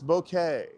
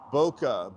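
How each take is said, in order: First: The word ends with an 'ay' sound. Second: The word ends with an 'ah' sound. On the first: The speaker calls it right. "It's bouquet" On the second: The speaker calls it wrong. "It's not Boca"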